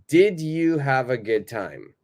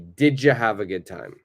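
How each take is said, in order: First: The words are said separately, as written. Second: The words are joined together and said faster. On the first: "if you are reading it without changing the pronunciation" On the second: "But my pronunciation will be"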